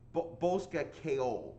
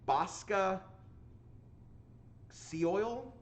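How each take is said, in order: First: The name is said with its Irish pronunciation. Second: The name is read by its English spelling. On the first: The speaker calls it right. "It's actually like Bosca Keol" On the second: The speaker calls it wrong. "I'm going to pronounce it phonetically. I know this is not correct"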